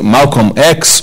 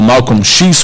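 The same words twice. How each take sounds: First: The X is pronounced the English way. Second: The X is pronounced the Portuguese way.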